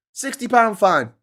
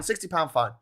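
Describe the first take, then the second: First: "sixty pound fine" said slowly and louder, higher, each word weighted; slow emphatic repeat. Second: Said in the usual way. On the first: Shown as a demonstration. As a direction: drag out "sixty pound fine" in mock dread.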